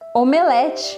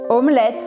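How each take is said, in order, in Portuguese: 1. Tem pronúncia portuguesa. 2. Tem pronúncia francesa.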